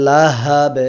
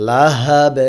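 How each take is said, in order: No difference in how they are said.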